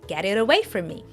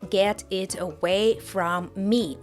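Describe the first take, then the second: First: The words link, with T sounding like soft D. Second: Each word is said separately with clear T sounds. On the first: "the T sound in get and it turns into a quick soft D sound" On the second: "pronounce all the words separately"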